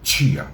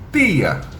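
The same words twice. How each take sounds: First: The t is softened, sounding like ch. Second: The t is hard, with no hushing. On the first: "Esse chiado" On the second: "se você for lá no Nordeste"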